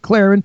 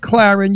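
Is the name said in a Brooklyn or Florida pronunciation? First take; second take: Florida; Brooklyn. First: The name is said in a Florida pronunciation. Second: The name is said in a Brooklyn pronunciation. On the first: "you say Claren, because you're from Florida" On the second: "I say Claren"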